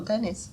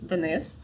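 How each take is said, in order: First: The stress is on the first syllable. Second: The stress is on the second syllable.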